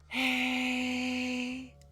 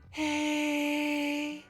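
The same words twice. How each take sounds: First: It is said at a lower pitch. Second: It is said at a higher pitch.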